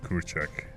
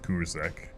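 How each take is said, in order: First: The middle consonant is a 'ch' sound. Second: The middle consonant is a 'z' sound. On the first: This is how a native speaker says it. The speaker calls it right. "Kurchak is when a native person says it" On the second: This is how an English speaker reads it. The speaker calls it wrong. "Kurzak is like when an Englishman looks at it"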